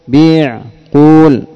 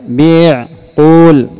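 No difference in how they are said.

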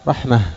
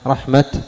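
First: The word ends with an h sound. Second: The word ends with a t sound. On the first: "الأكثر عند العرب الوقف عليها بالهاء" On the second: "فالوقف على رحمة رحمة جائز"

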